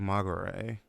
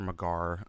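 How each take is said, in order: First: The name ends with a sounded final vowel. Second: The name ends without a final vowel. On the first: It is read in a Japanese way. "Magare would be like a Japanese pronunciation" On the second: It is read in a British way. "I guess it would be Magar if it's British"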